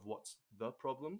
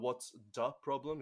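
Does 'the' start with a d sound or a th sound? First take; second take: th sound; d sound. First: 'The' is said with a th sound. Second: 'The' is said with a d sound. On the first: "instead of" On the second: "It turns into a D"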